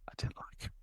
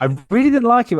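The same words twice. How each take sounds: First: Breathy whispered confession, almost silent. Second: Much higher and louder, bursting out; loud admission. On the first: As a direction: whisper it like a guilty secret. Confessing he disliked the boss. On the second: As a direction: blurt it out now that it's safe. Admitting it openly after encouragement. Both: Real, not acted.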